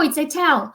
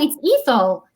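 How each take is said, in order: First: The middle consonant is a plain t sound. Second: The middle consonant is a th sound. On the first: This is how the name is really said. The speaker calls it right. "No, no, it's Etel" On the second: This is how others usually misread the name. The speaker calls it wrong. "they hear the name, they go, "Oh, it's Ethel.""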